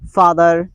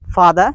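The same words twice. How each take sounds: First: The final R sound is clearly pronounced. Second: The final R sound is dropped. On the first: "American people all the time they pronounce R" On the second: "They don't sound R"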